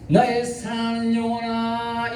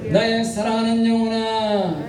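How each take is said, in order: First: Gently sung endearment; tender sung call. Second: Said in the usual way. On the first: Shown as a demonstration. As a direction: croon it like a lover calling. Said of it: "이렇게 해야지". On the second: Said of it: "다시 한번 따라합니다".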